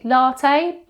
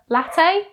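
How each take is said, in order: First: It is said the southern English way. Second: It is said the northern English way. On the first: "Southerners normally latte" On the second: "Northerners prefer latte"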